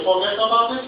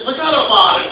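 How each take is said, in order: First: Unsure Indian-accented attempt at New York slang. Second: Emphatic New York "Forget about it", pitched up; New York accent. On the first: Clerk practises the phrase on customer, hesitant Indian accent. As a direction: say it as a question, with a put-on Indian accent. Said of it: "Don't say it like that". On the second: Acted. Customer teaches clerk the phrase, emphatic New York accent. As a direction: show him the punchy New York way. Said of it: "you really gotta be from New York".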